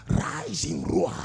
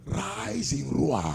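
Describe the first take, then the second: First: Much lower, rasped lion growl; low breathy lion-like growl on Rise in roar. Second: Said in the usual way. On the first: Shown as a demonstration. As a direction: let the lion rumble out of your throat. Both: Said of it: "That lion-like spirit in me, rise in roar".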